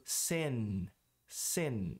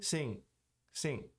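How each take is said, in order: First: Sin com N final claro, tom descendente; língua no palato no fim de sin; N pronunciado. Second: Sim soando como "sing"; N não pronunciado. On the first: (sin com N bem pronunciado) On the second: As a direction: deixe o fim de sim nasal, lá atrás. (sim sem o N final) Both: Shown as a demonstration. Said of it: "Se eu não pronunciar o N".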